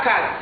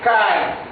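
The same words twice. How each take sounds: First: Case with a hard ending, as kat; wrong case. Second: Case with a z sound, as kaz; correct case. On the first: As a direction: say case as kat, not kaz. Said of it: "Pas case". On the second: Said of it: "la lettre S se prononce comme si c'est la lettre Z". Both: Shown as a demonstration.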